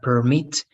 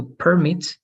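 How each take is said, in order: First: "permit" stressed on the second syllable, per-MIT; verb permit. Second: "permit" stressed on the first syllable, PER-mit; noun permit. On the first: Teacher showing the class the verb "permit", stress on MIT. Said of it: "is a verb". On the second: Teacher showing the class the noun "permit", stress on PER. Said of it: "a noun". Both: Shown as a demonstration.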